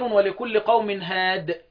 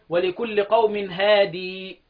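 First: The last word ends without a final long vowel. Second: The last word ends with a long 'ee' vowel. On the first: This is how most readers stop on the word. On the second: This is one reader's way of stopping on the word.

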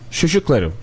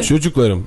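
First: It is said with soft childish sh sounds. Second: It is said with plain ch sounds.

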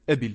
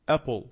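First: It is said with an Arabic-style pronunciation. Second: It is said with an English-style pronunciation. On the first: The speaker calls it wrong. "هذا لو سمعه أي شخص أعجمي لن يفهم هذه الكلمة" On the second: The speaker calls it right. "هي اسمها أبل"

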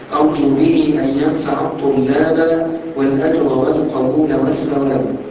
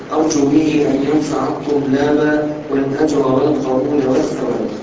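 The two takes are said the same way.

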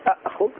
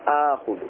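First: Two glottal stops are pronounced at the start. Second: One glottal stop followed by a long vowel. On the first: This is the original underlying form. The speaker calls it wrong. "أأخذ فيه ثقل في اللسان" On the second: This is the form actually used in speech. The speaker calls it right. "يقولون آخذ"

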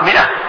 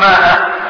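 First: The first vowel is a short 'i' sound. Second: The first vowel is a long 'aa' sound. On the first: The speaker calls it right. "تقرأ مئة" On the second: The speaker calls it wrong. "لكن ما تقرأ ماء"

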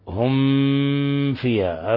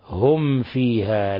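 First: The m sound is pressed hard. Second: The m sound is said lightly and clearly. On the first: The speaker calls it wrong. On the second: The speaker calls it right.

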